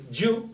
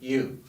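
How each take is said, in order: First: It has the sound used after a t. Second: It is said plainly, without the after-t sound. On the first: The speaker calls it wrong. "no lo vamos a decir you" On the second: The speaker calls it right. "lo vamos a decir you"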